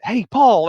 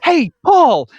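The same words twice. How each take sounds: First: Lightly mimicked cheery hey; imitating the greeting. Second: Big bright high greeting, shouted; loud sing-song hey over a mate's name; cheery shout. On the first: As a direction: fondly quote "Hey, Paul" up high. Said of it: "Like, I just love it". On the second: Retold or imitated. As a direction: call out Paul's name like an overeager yuppie. Retelling Leto's cheery greeting scene.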